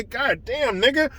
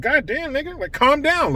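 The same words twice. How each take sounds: First: Same offhand line, much softer, a light mock; a hint of the player's casual tone; imitating Schroeder. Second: Lightly voiced, offhand mock of the player, softer; mild imitation of a player shrugging it off; imitating Schroeder. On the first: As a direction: keep the inflection, say it casually and quiet. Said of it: "just like Dennis Schroeder said it". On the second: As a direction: toss it off casually, a hint of the player's tone. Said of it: "look at how he said".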